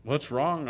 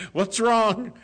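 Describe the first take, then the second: First: Said in the usual way. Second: Much higher and louder, startled concern; a worried, startled what's wrong; alarmed question. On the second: Retold or imitated. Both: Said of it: "you're crying".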